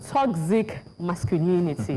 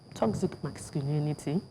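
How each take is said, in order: First: It is said louder, projected to the back. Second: It is said at normal, quieter volume.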